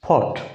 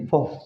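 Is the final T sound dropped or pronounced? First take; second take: pronounced; dropped. First: The final T sound is clearly pronounced. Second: American style, the final T is dropped.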